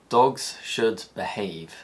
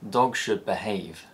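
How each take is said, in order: First: The final z of dogs stays unchanged. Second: The final z of dogs becomes another sound.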